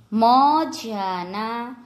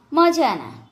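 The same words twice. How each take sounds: First: મજાના very slowly, in separate syllables; slow word demonstration. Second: Said in the usual way. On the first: Shown as a demonstration. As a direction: stretch out મજાના for learners. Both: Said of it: "જોડણી ઉપર જોજો".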